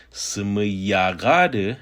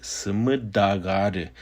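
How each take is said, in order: First: "yaga" with initial y, slowly; slow "Seme yaga de", y starting the middle word; Y form. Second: "daga" with initial d, slowly; slow "Seme daga de", d starting the middle word; D form. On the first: Teacher gives the form not used, "yaga" with slow y. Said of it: "So instead of saying". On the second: Teacher quotes the speaker's variant, "daga" with slow d. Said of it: "with a D sound". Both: Shown as a demonstration.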